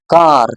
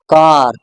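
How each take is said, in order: No difference in how they are said.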